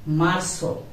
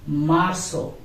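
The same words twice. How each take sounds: The two takes are said the same way.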